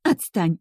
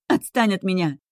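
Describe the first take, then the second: First: Shouted, somewhat higher; shouting. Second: Higher shriek full of pain. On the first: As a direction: yell it in pain. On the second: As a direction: let the voice squeal in anguish. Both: A narrator's reading. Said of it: "Кричу, и в голосе слышен визг".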